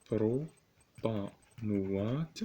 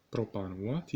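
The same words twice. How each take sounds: First: Drawn-out, very slow بروبانوات, each syllable stretched; slow dictation. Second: Said in the usual way. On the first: Shown as a demonstration. Teacher dictating to students, stretching بروبانوات slowly. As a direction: spell it out slowly for note-taking.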